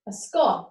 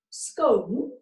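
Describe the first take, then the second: First: "scone" rhyming with gone; short o scone. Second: "scone" rhyming with bone; long o scone. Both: Shown as a demonstration. Teacher contrasting the two ways to say scone. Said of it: "how do you pronounce the word".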